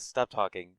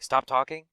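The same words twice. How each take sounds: First: It is said mildly, in Zelenka's manner. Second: It is said aggressively, in McKay's manner.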